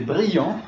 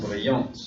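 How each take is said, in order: First: BRILLANT ending on a nasal vowel, silent T; masculine form. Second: BRILLANTE with the final T sounded; feminine form. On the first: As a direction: model "brillant" without sounding the final T. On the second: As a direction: close "Brillante" on an audible T. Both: Shown as a demonstration. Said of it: "Féminin".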